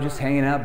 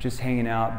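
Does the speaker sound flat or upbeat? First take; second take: upbeat; flat. First: The voice sounds lively and playful. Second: The voice sounds flat and dull. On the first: The speaker is joking and not really boring. The speaker calls it right. "Or if I'm on the phone, I'm like" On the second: The speaker really is boring. The speaker calls it wrong. "But if I'm like"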